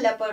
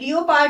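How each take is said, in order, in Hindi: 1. यह दो अक्षरों में बोला जाता है, 'lep-ard'. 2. यह तीन अक्षरों में बोला जाता है, 'lee-o-pard'. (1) "लेपर्ड होता है" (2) "लियोपार्ड नहीं होता"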